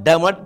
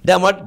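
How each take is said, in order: The two takes are said the same way.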